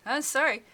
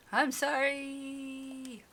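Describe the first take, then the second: First: Higher, louder, mildly tearful apology; acted cry of apology, choked with emotion. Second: High, long-drawn wail of sorry; wailed apology. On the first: Scolded visitor apologizing to the woman, mildly tearful. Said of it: "My voice was choked by tears and ragged with raw emotion". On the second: Acted. Scolded visitor told to mean it, wailing apology. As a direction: stretch the apology out into a hammed-up wail. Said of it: "Say louder. Say it like you mean it".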